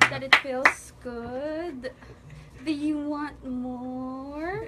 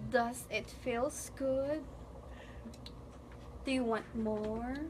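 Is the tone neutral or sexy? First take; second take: sexy; neutral. First: It is said slowly in a sultry, sexy way. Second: It is said in a plain, normal way.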